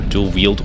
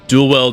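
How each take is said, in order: First: The second word rhymes with field. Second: The second word rhymes with held. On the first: "Dual wield, sorry" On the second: "I'm pronouncing it the same way as like welding"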